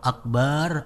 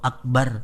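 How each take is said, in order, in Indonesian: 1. Vokal 'ba' dibaca panjang. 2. Vokal 'ba' itu pendek. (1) "Jangan sekali-kali panjang ba-nya itu" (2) "Kalau akbar artinya itu maha besar"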